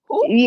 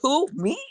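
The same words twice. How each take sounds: First: It is said in a put-on French accent. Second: It is said in the speaker's usual accent.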